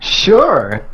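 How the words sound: The word sounds lively and enthusiastic. The speaker calls it right. "There you go. Enthusiasm"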